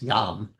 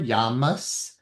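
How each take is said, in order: First: The word ends on the m consonant. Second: The word ends with an added vowel and s. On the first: The speaker calls it right. "yam is the more proper way to say it" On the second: The speaker calls it wrong. "is not how I learned to say it in India"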